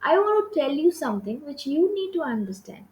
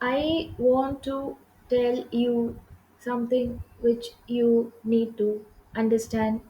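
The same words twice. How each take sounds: First: It is spoken at a moderate, even pace. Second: It is spoken at a very slow pace. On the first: The speaker calls it right. "I have to have a moderate pace" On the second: The speaker calls it wrong. "ଏମିତି ବି କହିପାରିବିନି"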